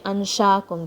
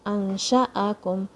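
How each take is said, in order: First: The two middle vowels run together. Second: The two middle vowels are kept apart. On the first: The speaker calls it wrong. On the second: The speaker calls it right.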